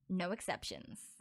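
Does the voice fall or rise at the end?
fall. The voice falls at the end. It firmly states that there are none. "repeated my words, except not as a question"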